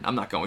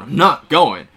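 First: Said in the usual way. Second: Loud defiant shout on "not"; angry refusal. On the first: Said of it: "Wade's just like". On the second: Retold or imitated. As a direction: bark "I'm NOT going" back at him. Wade refusing, heated quarrel.

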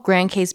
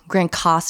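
First: Case in Grand Case said like English "case"; spelling pronunciation. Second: Case in Grand Case said as "Coss"; corrected local pronunciation. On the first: Real, not acted. Wife naming the beach club, Grand Case said as spelled. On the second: Shown as a demonstration. Wife correcting her own slip, Grand Case said "Grand Coss". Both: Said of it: "That is one thing that we do get wrong".

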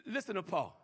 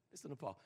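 First: Low, softened call to listen; soft prompt. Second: Very low, barely audible prompt; near-whisper. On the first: Preacher introducing Paul's verse, soft prompt. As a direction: ask for attention softly. First take before hushed repeat. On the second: Preacher drawing listeners to Paul, near-whisper. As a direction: repeat it right down under the breath. Repeated in a deeper hush. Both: Real, not acted.

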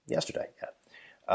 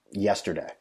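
First: Breathy aside repeating yesterday; Yesterday whispered, slow and soft; whispered echo. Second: Said in the usual way. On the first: Shown as a demonstration. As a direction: whisper the word back to yourself.

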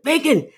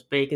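First: "Bacon" punched out high and loud; mock old-man outburst on "Bacon", pitched way up; exclaimed "Bacon". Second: "Bacon" as a short question at usual pitch. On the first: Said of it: "He's like". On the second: Retold or imitated. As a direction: ask "Bacon" briefly, without any outburst. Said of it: "waits for Jack Lemmon to reply".

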